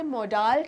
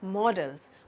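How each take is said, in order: First: The second syllable has a long full 'aa' vowel. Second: The second syllable has a short reduced vowel. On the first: The speaker calls it wrong. "But that's a complete wrong pronunciation" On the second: The speaker calls it right. "ये होता है मॉडल्स"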